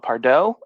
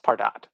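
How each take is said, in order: First: The name is said with a French-style ending. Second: The name is said without a French-style ending. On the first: The speaker calls it wrong. "people who like to call it Pardot ... maybe a French pronunciation" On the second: The speaker calls it right. "Pardot is pronounced Pardot"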